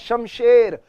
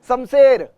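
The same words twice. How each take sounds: First: The first sound is a 'sh'. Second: The first sound is a plain 's'. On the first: The speaker calls it right. "श है वो, स नहीं है वो" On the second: The speaker calls it wrong. "मैंने बहुतों को सुना है"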